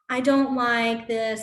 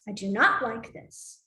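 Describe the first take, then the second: First: 'Do not' is contracted to 'don't'. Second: 'Do not' is said as two full words. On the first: This is the usual everyday native form. "we have all those contractions" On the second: This is the form often used by language learners. "they learn it as"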